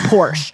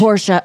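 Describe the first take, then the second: First: Porsche said as a single "Porsh", no final vowel, low and falling; Porsche in one syllable. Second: Porsche said as "Por-shuh", with a clear final uh and a falling end; Porsche the German way. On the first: Shown as a demonstration. Correcting herself for friends, saying Porsche as one-syllable Porsh. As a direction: clip Porsche to just Porsh. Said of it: "Sorry, I'm supposed to say Porsche".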